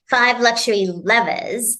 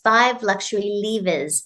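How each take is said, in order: First: Levers is said in an American way. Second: Levers is said in a non-American way.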